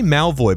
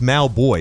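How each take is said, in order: First: The name is said with a v sound. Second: The name is said with a b sound. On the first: The speaker calls it wrong. "I say Malvoy" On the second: The speaker calls it right. "but it's Malboy, isn't it?"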